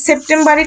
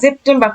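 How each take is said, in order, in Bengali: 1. শব্দটি ইংরেজির মতো করে উচ্চারিত হয়। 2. শব্দটি পরিবর্তিত জার্মান ধরনে উচ্চারিত হয়। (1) "এটা কি সেপ্টেম্বরই করা উচিত না" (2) "কিন্তু এখানে কিন্তু ওরা সেপ্টেম্বর করে ফেলছে"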